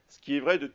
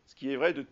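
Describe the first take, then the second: No difference in how they are said.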